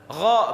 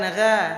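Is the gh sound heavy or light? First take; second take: heavy; light. First: The gh sound is thick and heavy. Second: The gh sound is thin and light. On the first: The speaker calls it right. "Gha ini juga termasuk huruf yang dibaca te tebal. Gha bacanya" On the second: The speaker calls it wrong.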